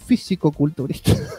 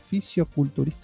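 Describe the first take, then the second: First: The word has a k sound after 'fisi'. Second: The word has no k sound after 'fisi'. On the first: The speaker calls it right. "Es físico-culturista" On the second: The speaker calls it wrong. "está mal dicho también"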